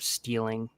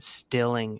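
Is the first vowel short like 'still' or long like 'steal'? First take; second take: long; short. First: The first vowel is long, like in 'steal'. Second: The first vowel is short, like in 'still'. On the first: The speaker calls it right. "instead of stealing" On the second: The speaker calls it wrong. "he said stilling instead of stealing"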